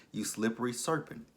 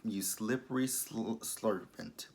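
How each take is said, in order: First: A giggly fix after the flub; laughing correction. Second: A garbled slip, mid-insult; tongue-tied flub. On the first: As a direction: get slippery serpent out right through a laugh. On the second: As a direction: trip over slippery, then blurt slurpant. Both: Real, not acted.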